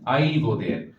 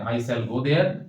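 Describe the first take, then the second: First: Shall is shortened to a short 'll sound. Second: The word shall is said in full.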